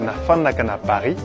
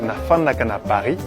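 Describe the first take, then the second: First: It is said the Kinshasa way, with an f. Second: It is said the Kinshasa way, with an f.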